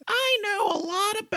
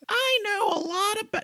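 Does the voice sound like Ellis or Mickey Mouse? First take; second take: Mickey Mouse; Mickey Mouse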